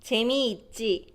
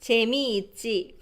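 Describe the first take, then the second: No difference in how they are said.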